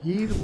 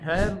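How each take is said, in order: First: It starts with an h and an ee vowel. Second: It starts with an h and an ai vowel. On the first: "बहुत लोग इसको हीर बोलते हैं" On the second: "हैर बोलते हैं"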